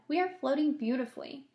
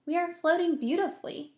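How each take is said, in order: First: Put-on light agreeing old grasshopper voice; old grasshopper backing up James, lightly voiced. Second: Put-on higher, calm reassuring boy; calm boy James. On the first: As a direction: confirm the boy's words gravely. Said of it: "the old green grasshopper said". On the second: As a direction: soothe the frightened friends. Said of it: "said James calmly". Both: A narrator's reading.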